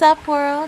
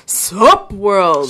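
First: It is said in a tiny, squeaky voice. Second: It is said in a deep, chesty voice.

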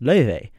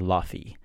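First: The middle consonant is a v sound. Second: The middle consonant is an f sound. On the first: The speaker calls it right. "But it's pronounced Loewe" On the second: The speaker calls it wrong. "people might say Lofi"

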